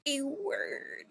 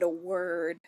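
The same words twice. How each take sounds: First: "word" drawn out, high and soft; odd silly voice. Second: Said in the usual way. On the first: Real, not acted. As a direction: say "A word" oddly, high-pitched and stretched. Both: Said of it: "why I said it like that".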